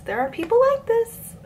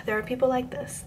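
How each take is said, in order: First: "There are people like this" squeaked very high; comic high-pitched exasperation; exasperated squeal. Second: Said in the usual way. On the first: Shown as a demonstration. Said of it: "repeated with big pitch jump". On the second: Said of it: "repeated line".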